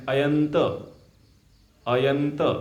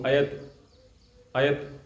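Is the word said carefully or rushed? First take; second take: carefully; rushed. First: It is said carefully, with every sound kept. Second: It is said quickly, with sounds dropped. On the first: The speaker calls it right. "तो सही उच्चारण है" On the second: The speaker calls it wrong. "कुछ लोग इतना fast तीव्र गति से बोलते हैं"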